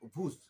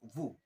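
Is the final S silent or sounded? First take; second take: sounded; silent. First: The final S is pronounced aloud. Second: The final S is not pronounced. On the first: The speaker calls it wrong. "this is not vous" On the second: The speaker calls it right. "S is silent here, so you have to pronounce vous"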